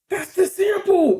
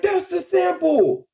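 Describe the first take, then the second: First: Much higher, slowed exclamation; higher, drawn-out excited realization; excited recognition. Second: Much higher, slow stretched cry; higher, slower excited repeat; excited recognition. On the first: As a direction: shout it like you just caught them. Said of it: "we was like". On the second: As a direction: repeat the discovery even more amazed. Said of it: "We like". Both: Retold or imitated.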